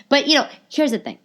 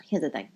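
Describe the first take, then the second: First: Emphatic announcement. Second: Low, soft confidential repeat; hushed confiding. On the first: Podcaster setting up her point, high and emphatic. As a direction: pitch it up to grab attention. Emphatic take before hushed repeat. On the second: Podcaster confiding in listeners, hushed. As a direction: drop it down like a confession. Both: Real, not acted.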